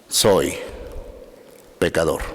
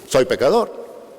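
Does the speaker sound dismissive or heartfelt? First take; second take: heartfelt; dismissive. First: It is said sincerely, with deep feeling. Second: It is said casually, shrugging it off. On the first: The speaker truly admits the fault. The speaker calls it right. "pero de todo corazón" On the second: The speaker admits it without real remorse. The speaker calls it wrong. "no así"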